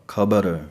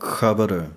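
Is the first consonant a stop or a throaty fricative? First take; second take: stop; fricative. First: The word begins with a full aspirated k stop. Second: The word begins with a rasping throat fricative. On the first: "35 ਅੱਖਰਾਂ ਵਾਲਾ ਖੱਖਾ ਵਰਤ ਕੇ" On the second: "ਜਦੋਂ ਖੱਖੇ ਪੈਰ ਬਿੰਦੀ ਹੋਵੇਗੀ"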